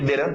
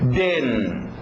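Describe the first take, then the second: First: The final t is dropped, with no catch. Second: A brief catch replaces the middle consonant. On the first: "sem o T" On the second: "se for um pouquinho mais preguiçoso, só de, uma pausa aqui"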